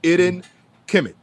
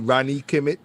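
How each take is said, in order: First: A vowel sound comes before the R sound. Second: The first word starts directly with the R sound. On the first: The speaker calls it right. "you put a vocalized I in front of the R" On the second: The speaker calls it wrong. "some people unfortunately say it incorrectly"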